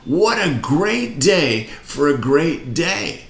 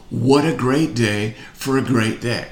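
First: Higher and slower, with more push; more energy. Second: Said in the usual way. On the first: Shown as a demonstration. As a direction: lift it up for the crowd. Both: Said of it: "Little more".

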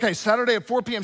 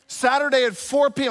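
First: "Okay, Saturday at four P M" rushed out fast; hurried husband echoing "Saturday at four P M"; rattled-off agreement. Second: "four" punched in "Saturday at four P M"; emphatic repeat. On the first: Retold or imitated. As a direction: breezily toss off "Saturday at four P M". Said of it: "I was like". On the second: Shown as a demonstration. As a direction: drive home "four P M" as a warning. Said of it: "I'll see you Saturday at four P M".

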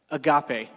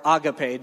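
First: "agape" said a-GAH-pay, middle syllable stressed. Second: "agape" said AH-guh-pay, first syllable stressed. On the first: Preacher teaching the congregation the Greek word, "agape" said a-GAH-pay. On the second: Preacher giving the congregation the other way to say it, "agape" as AH-guh-pay. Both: Shown as a demonstration. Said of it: "depending on what emphasis you put on what syllable".

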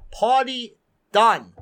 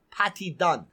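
First: Said in the usual way. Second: Put-on Caribbean accent. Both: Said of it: "like my Caribbean friends like to say".

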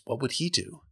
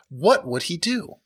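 First: "he" stressed, said softer; "what would he do?" quietly, leaning on "he". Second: "what" lifted with a rising question; "what would he do?" with the stress on "what". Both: Shown as a demonstration.

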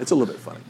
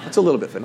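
First: The same words, softer still, no laugh; quiet repeat. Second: Laughing aside. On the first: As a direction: let it fall away as an aside. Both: Real, not acted. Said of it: "Not a lot funny".

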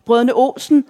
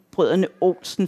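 First: Higher, mildly raised call; excited shout. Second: Understated giggly murmur, no real laugh. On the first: Excited reveller recognising a song in the bar, shouting. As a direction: call it out as if thrilled. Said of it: "råber jeg". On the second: Reveller into the woman's ear, mildly giggly. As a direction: say it lightly as a private joke. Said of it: "fniser jeg ind i hendes ører". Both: A narrator's reading.

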